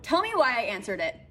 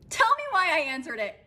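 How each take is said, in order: First: Said in the usual way. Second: Higher, emphatic "Tell me why I answered it"; exasperated repeat. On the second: Real, not acted. Asking viewers about answering the FaceTime, exasperated "Tell me why". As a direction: lift and punch "Tell me why", exasperated at yourself.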